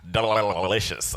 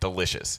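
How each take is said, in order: First: It is said creepily, imitating Homelander licking his lips. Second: It is said plainly, as a simple line.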